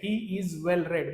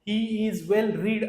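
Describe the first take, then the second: First: The last word has a short 'e' vowel. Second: The last word has a long 'ee' vowel. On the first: The speaker calls it right. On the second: The speaker calls it wrong. "असं नाही म्हणत"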